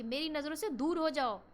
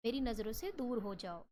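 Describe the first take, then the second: First: The right, angry way to say it. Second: Said in the usual way. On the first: Shown as a demonstration. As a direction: throw them out straight away. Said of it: "तो ये strong emotions है". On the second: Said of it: "कोई आराम से नहीं बोलेगा".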